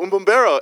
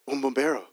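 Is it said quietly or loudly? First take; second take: loudly; quietly. First: It is said loudly. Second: It is said fairly quietly.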